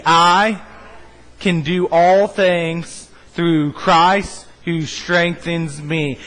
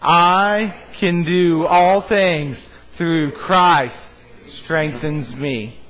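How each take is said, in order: First: Very slow, drawn out, leading the crowd; slow unison recital. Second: Extremely slow, every word held, fading at the end; mean every word, drag it out; said like you mean it. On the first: Pastor leading the congregation in the verse, very slow. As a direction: stretch each word so the room follows. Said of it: "say it with me". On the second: Pastor urging the church to say it like they mean it, very slow. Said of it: "say it like you mean it". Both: Shown as a demonstration.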